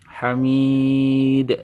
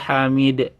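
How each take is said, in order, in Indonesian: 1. Huruf hidup panjang itu ditahan selama dua ketukan. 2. Huruf hidup panjang itu dipotong pendek. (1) "Hamid dua ayunan" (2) "Jangan ... kurang mantul ya"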